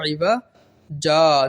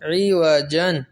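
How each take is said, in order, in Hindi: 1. शब्द लंबी 'a' स्वर से ख़त्म होता है। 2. शब्द 'n' की आवाज़ से ख़त्म होता है। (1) "वक्फ की सूरत में ये इवजन जो है क्या हो जाएगा" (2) "जीम दो ज़बर जन"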